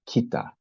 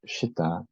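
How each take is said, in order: First: The syllable begins with a k sound. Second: The syllable begins with an sh sound. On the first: This is the Tibetan pronunciation. "the Tibetans pronounce this" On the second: This is the careful Sanskrit pronunciation. "not Shita"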